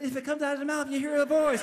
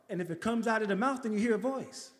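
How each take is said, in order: First: A hint of laughing disbelief; echoing the funeral director's explanation, incredulous. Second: Said in the usual way. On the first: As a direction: repeat his words back, amused and disbelieving. Echoing Anthony's words in disbelief.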